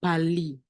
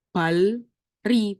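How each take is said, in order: First: Bali with a double L, no R; merged L reading. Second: Balri with separate L and R sounds; wrong split reading. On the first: Teacher giving learners the correct reading, Bali with L replacing R. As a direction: say Bali as bal-li, the R turned into L. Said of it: "tapi bacanya". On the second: Teacher showing how not to read it, Balri with the R sounded. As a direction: say Balri as two parts, bal then ri, R clearly heard. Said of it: "bacanya bukan". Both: Shown as a demonstration.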